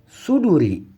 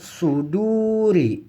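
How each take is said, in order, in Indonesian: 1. Vokal setelah d pendek. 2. Vokal setelah d panjang. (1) "bukan suduri" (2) "Maka ini dibaca panjang"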